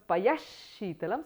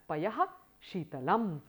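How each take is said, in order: First: The h sound becomes a doubled sh sound. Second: The h sound is kept before the sh. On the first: "there's a doubling of that same letter" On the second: "it stays the same as Payah Sheetalam"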